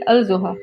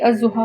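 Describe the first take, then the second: First: The L of the article is clearly pronounced. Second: The L is silent, merged into the next sound. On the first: "originally ये है फी अल जोहा" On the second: "हम लोग ऑलरेडी इसके लाम को साइलेंट कर चुके हैं"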